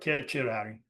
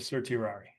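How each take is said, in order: First: The first C is said as a K sound. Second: The first C is said as an S sound.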